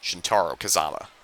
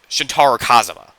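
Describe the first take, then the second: First: The name is pronounced in a casual, loose way. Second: The name is pronounced in a careful, deliberate way. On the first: The speaker calls it wrong. "I've been pronouncing, pronouncing them casually" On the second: The speaker calls it right. "should be pronouncing it like that"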